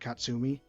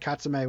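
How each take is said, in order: First: The name ends in an 'ee' vowel. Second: The name ends in an 'eh' vowel. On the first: The speaker calls it right. "and then Katsumi" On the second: The speaker calls it wrong. "Katsume would be with the e"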